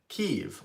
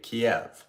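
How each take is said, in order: First: The name is said in the Ukrainian form, Kyiv. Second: The name is said in the Russian form, Kiev. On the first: This is how Ukrainians say the name. "Ukrainians pronounce it Kiev" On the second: This is how Russians say the name. "Russians would say Kiev"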